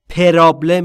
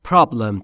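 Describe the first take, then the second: First: An extra vowel is inserted between P and R. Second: P and R are joined with no vowel between. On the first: The speaker calls it wrong. "پرابلم نیست" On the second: The speaker calls it right. "پس problem تلفظ درسته"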